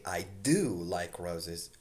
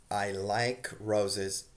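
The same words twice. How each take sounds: First: "do" stressed, slow and deliberate; emphatic do. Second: Said in the usual way. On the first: Shown as a demonstration. Teacher showing students the emphatic "do", stressing "do". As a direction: lean on "do" in "I do like roses". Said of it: "also you're using more emphasis". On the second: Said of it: "You can say".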